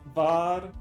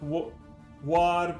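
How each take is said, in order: First: The word begins with a V sound. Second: The word begins with a W sound. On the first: The speaker calls it right. "the W is more like a V pronounced" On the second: The speaker calls it wrong. "not war"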